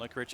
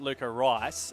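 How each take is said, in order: First: The name ends with a 'rich' sound. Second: The name ends with a 'rice' sound. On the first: This is how the person asked it to be said. "I call him Lukarich" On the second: This is how most people say the name. "a lot of people say that"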